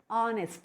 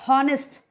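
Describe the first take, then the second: First: The word begins with a vowel, h silent. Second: The word begins with a sounded h. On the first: The speaker calls it right. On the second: The speaker calls it wrong.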